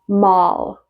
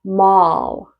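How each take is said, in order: No difference in how they are said.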